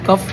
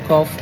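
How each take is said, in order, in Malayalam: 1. സ്വരം 'cup' എന്നതിലെ u പോലെയാണ്. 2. സ്വരം 'off' എന്നതിലെ o പോലെയാണ്. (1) "കഫ് എന്നാണ് പലരും പറയാം" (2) "ശരിക്കും അതിൻ്റെ കറക്റ്റ് പ്രൊനൗൺസിയേഷൻ"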